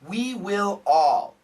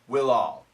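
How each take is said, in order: First: Each word is said fully and separately. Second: The words run together, sounding like 'will all'.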